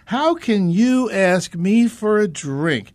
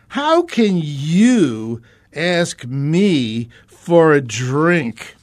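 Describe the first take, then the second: First: It is read in a plain, neutral tone. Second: It is read in a resentful, hostile tone. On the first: The speaker calls it wrong. "let's not read this the way I just did" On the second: The speaker calls it right. "read it with the tone that is likely there"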